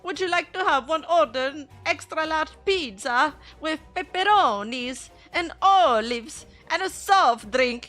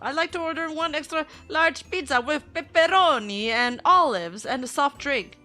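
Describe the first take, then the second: First: It is said in a put-on Mario voice. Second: It is said in the speaker's normal voice.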